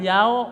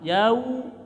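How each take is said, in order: First: The word ends with an 'o' vowel sound. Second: The word ends with an 'u' vowel sound. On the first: The speaker calls it wrong. "jangan yao" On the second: The speaker calls it right. "suara u"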